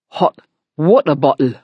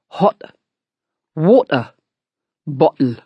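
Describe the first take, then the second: First: It is said at normal speed. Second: It is said slowly.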